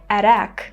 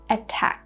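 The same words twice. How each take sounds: First: The T is a quick D-like flap. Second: The T is a clear, full T sound. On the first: The speaker calls it wrong. "It's not going to be correct because the syllable is stressed" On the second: The speaker calls it right. "we're pronouncing the T sound just like in British English"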